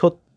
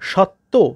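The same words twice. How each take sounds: First: The first vowel is an 'o' sound. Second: The first vowel is an open 'a' sound. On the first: This is how people actually say it. "কিন্তু আমরা বলি কি সত্য" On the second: This is how the spelling suggests it. "এরকম হওয়ার কথা"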